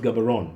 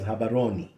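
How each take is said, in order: First: The name begins with a hard g sound. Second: The name begins with an h sound. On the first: This is how it is commonly said today. "Gabaron today is pronounced" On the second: This is how the local people say it. "the locals actually pronounce that as"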